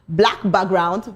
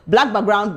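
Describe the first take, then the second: First: It is said slowly. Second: It is said fast.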